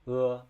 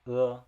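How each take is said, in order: No difference in how they are said.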